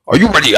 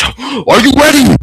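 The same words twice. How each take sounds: First: Said in the usual way. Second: Slow, higher shouted tease; drawn-out showman call; teasing shout. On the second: Acted. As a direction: hype the crowd before the reveal. Dramatic buildup shouted.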